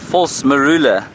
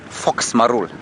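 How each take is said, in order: First: It is said in full as 'false marula'. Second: It is shortened to sound like 'fox marul'. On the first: The speaker calls it right. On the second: The speaker calls it wrong.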